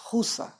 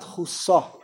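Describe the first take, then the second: First: The stress is on the first syllable. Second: The stress is on the last syllable. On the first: The speaker calls it right. "mileel ki chusa" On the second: The speaker calls it wrong. "it's not chusa"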